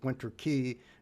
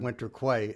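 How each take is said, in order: First: Quay is pronounced like the word key. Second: Quay is pronounced with a kw sound, like kway. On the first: The speaker calls it right. "I realized it was Winter Key" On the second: The speaker calls it wrong. "as I've been saying for the past twelve years"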